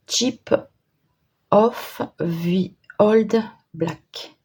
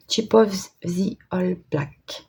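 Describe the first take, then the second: First: French-accented English. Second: Slow, careful French-accented English, reading the name off her own note. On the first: Crafter squints at a small pot's English name, halting French-accented English. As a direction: sound out each English word slowly in a French accent. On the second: Crafter rereads the pot name from her note, slow French-accented English. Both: Real, not acted. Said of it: "mon superbe anglais avec l'accent du Nord".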